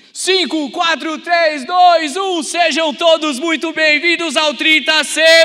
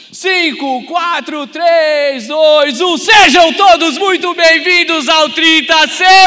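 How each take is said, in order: First: Loud, high countdown, then a greeting; countdown shout, test run. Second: Countdown building to a full roar; roaring rallying shout. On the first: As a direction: count down and call out the welcome. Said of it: "O primeiro é teste". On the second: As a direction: yell the welcome at full power. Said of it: "agora é pra valer". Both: Acted.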